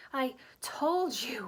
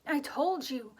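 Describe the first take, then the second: First: Slow, breathless gasping; winded words, gasping for air; gasped. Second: Louder, with a falling, final told; firm repeat. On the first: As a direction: push each word out between gasps. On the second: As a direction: land told hard and drop the tune. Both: A narrator's reading. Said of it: "Hermione gasped".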